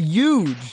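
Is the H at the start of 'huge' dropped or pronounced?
dropped. It is said New Jersey style without the H.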